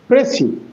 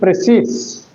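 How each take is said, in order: First: The word ends on a vowel, no final s. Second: The word ends with an audible s sound. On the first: The speaker calls it right. "the pronunciation is P R E C I. That is Pressy" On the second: The speaker calls it wrong. "not Precis"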